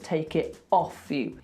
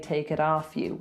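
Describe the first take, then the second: First: The T is dropped completely. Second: The T is pronounced like a D. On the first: "He drops the T completely, so that's quite London" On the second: "if we were being Californian, we would say take it off you with a D"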